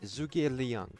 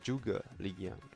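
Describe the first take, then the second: First: The name is said with English-style sounds. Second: The name is said with Chinese-style sounds.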